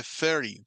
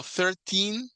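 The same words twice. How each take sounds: First: "thirty" stressed on "thir-" and falling on "-ty"; "thirty" with a short, light "-ty". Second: Put-on "thirteen" said slowly, stressed on the final "-teen" with higher pitch; "thirteen" with a long, stressed "-teen". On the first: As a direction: hit "thir-" and let "thirty" drop. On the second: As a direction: drag out and lift "-teen" in "thirteen". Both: Shown as a demonstration. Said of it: "Va diferente entonación".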